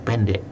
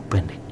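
No difference in how they are said.

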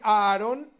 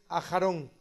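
First: The name is said the common Spanish way. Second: The name is said the Hebrew way. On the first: The speaker calls it wrong. "aunque la gente dice Aharon" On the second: The speaker calls it right. "correctamente dicho en hebreo"

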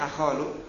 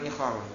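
First: The word begins with an "a" vowel. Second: The word begins with an "i" vowel. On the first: This is the form expected by the regular rule. "Biasanya kan fathah ya" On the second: This is the form most often used in practice. "Cuma banyak digunakan ikhal"

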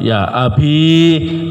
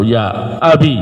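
First: The word ends in a long i vowel. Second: The word ends in a short i vowel. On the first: "Ya-nya dipakai dalam keadaan sukun" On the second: "Ya-nya dibuang terus cukup dengan tanda kasrah"

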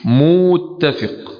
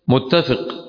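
First: The first vowel is lengthened. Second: The first vowel is short.

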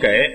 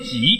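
First: The word begins with a g sound. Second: The word begins with a j sound. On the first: The speaker calls it wrong. "我们都念给" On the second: The speaker calls it right. "念挤"

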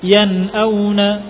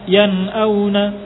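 Both takes have the same delivery.

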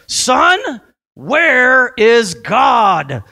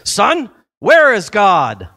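First: It is yelled loudly. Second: It is said firmly but not shouted.

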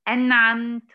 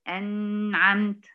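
First: The n sound has a normal length. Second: The n sound is held too long. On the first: The speaker calls it right. "يعني أقول إيه؟" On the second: The speaker calls it wrong. "ولا تزيد في زمن النون"

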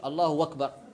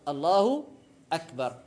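First: The second word begins with a w-sound. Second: The second word begins with a glottal stop. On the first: The speaker calls it wrong. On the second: The speaker calls it right.

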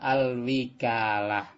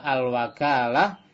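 First: The vowel after the w is 'i'. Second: The vowel after the w is 'a'. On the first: "dengan fathah kasroh" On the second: "dengan fathah wawu"

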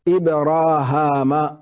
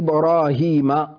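First: The final syllable has a long aa vowel. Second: The final syllable has a long ee vowel.

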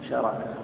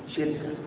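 First: It is said with the vowels a then a. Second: It is said with i and no middle vowel. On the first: "ثمرة شركة" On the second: "نعمة شركة"

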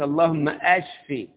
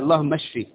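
First: The verb begins with a clear glottal stop. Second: The verb begins without a glottal stop. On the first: It asks for the illness to increase. The speaker calls it wrong. "ما ينفعش يقول اللهم اشفي، اشفي يبقى يزداد المرض" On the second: It asks for healing. The speaker calls it right. "همزة وصل وليست همزة قطع"

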